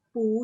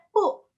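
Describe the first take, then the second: First: "pu" drawn out, climbing upward; slow "pu" with a rising end. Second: "pu" falling sharply from high; quick downward "pu"; fourth-tone PU. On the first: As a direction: lift "pu" like a question. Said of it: "dia punya naik". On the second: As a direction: drop "pu" short and firm. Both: Shown as a demonstration.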